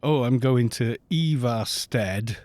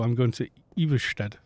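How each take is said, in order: First: Ivarsted with a plain English a and r; English pronunciation. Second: Iversted with an sh before the t, Norwegian style; Norwegian pronunciation. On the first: Streamer to viewers, saying Ivarsted the English way. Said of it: "they don't say". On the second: Streamer to viewers, Iversted the Norwegian way. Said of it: "They go". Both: Shown as a demonstration.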